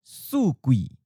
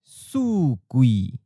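First: It is said at a natural, normal speed. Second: It is said slowly and carefully. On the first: "First natural speed" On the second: "and then slowly"

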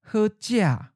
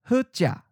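First: The tone syllable falls from a high pitch. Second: The tone syllable is mid pitch and cut short. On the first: "the eighth tone is often of a high falling tone" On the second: "Mid stop"

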